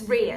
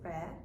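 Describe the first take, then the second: First: The vowel sounds like the one in ear. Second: The vowel sounds like the one in rare. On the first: The speaker calls it right. "It's it's rear" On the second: The speaker calls it wrong. "Not the way I used to pronounce it, which yeah. was rare"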